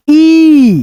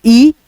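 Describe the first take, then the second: First: ई stretched long, higher in pitch; drawn-out long ee. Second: ई said short and brief; a quick ई, cut off early; short vowel ई with little sound. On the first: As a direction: hold the ई as one long, raised vowel. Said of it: "खींच करके बोला जाता है". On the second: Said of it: "ई जो है कम sound करता है". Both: Shown as a demonstration.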